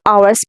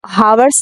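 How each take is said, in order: First: The word begins without an h sound. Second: The word begins with an h sound. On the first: The speaker calls it right. "बल्कि हम आवर्स पढ़ते हैं" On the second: The speaker calls it wrong. "हावर्स नहीं पढ़ते"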